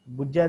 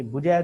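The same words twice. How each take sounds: First: ਬੁਝੈ with a doubled, held ਝ; doubled consonant. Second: ਬੁਝੈ with a single, undoubled ਝ; single consonant. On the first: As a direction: say ਬੁਝੈ as bujjhai, meaning to find. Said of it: "ਦਾ ਅਰਥ ਹੁੰਦਾ ਹੈ ਲੱਭਣਾ". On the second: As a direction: say ਬੁਝੈ as bu-jhai, meaning to end. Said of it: "ਦਾ ਅਰਥ ਹੁੰਦਾ ਹੈ ਖਤਮ ਹੋਣਾ". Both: Shown as a demonstration.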